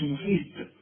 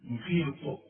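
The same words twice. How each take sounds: First: محيط ending in a light ت sound; student's faulty محيط; mock wrong pronunciation. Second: محيط ending in a heavy ط, falling; correct pronunciation. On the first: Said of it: "ما تقولش محيط". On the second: Shown as a demonstration. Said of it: "لا،".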